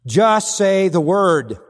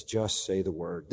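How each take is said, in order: First: Loud, slow proclamation of Just say the word; proclaimed. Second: Soft, slow, lower Just say the word; hushed. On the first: Preacher proclaiming the centurion's words loudly and slowly. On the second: Preacher quietly repeating the centurion's request, soft and slow. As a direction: say Just say the word quietly and slowly, dropping low. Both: Shown as a demonstration. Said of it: "This is his great faith".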